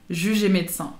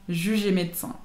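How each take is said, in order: Both takes have the same delivery.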